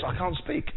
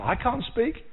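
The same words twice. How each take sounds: First: Said in the usual way. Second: I can't speak pitched up, pleading; mock Moses protesting, higher; whiny Moses. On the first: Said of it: "God says". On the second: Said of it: "That was his answer".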